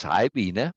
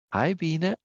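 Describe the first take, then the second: First: Said in the usual way. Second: Higher, badly faked female voice; Norma. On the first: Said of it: "Norma says". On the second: Streamer says hi on Norma's behalf, attempted impression. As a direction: have a go at imitating a woman, pitched up. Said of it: "I can't do your voice".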